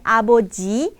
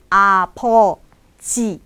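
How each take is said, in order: First: Aboji with a voiced b, said quickly; the incorrect aboji, b fully voiced; wrong take. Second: Apoji slowly, unvoiced p in the middle; slow apoji, p not b; correct take. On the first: Teacher showing the wrong aboji, voiced b. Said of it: "bukannya aboji". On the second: Teacher correcting aboji to apoji, slow and careful. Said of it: "bukannya aboji, tapi apoji". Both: Shown as a demonstration.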